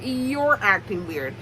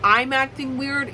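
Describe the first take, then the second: First: Slow falling retort stressing "You're"; accusing retort. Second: Slow, offended echo stressing "acting"; incredulous echo. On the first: Acted. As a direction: turn it back with weight on "You're". Turns the accusation back. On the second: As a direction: throw "I'm acting weird?" back in disbelief. Acted retort to an accusation.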